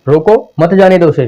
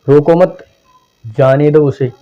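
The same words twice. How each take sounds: First: There is a pause after 'roko'. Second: There is a pause after 'mat'.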